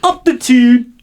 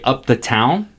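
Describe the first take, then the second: First: It is said in a Newcastle (Geordie) accent. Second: It is said in a plain American accent. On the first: "How they say it?" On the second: "that's what I'm saying right now in regular American English"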